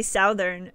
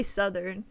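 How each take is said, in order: First: "Southern" said with the "south" vowel, like SOW-thern; old wrong Southern. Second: "Southern" with a short u, SUH-thern; American Southern. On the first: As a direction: say "Southern" rhyming with mouth, SOWTH-ern. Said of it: "I used to always say Southern". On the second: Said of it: "until Americans taught me". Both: Shown as a demonstration.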